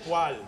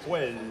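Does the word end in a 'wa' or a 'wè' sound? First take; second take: wa; wè. First: The vowel is a 'wa' sound, not rhyming. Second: The vowel is a 'wè' sound, rhyming. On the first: This is how the word is said today. "ça y allait pas très bien" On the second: This is how the word was likely said long ago. "on devait plus prononcer Saint-Michel et poêle"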